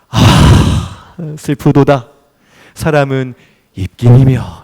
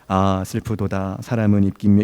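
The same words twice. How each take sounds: First: It is read with a sorrowful, sighing tone. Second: It is read flatly, without feeling.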